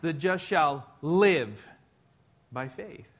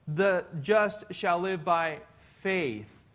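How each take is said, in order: First: The stress is on the word live. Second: The stress is on the word faith.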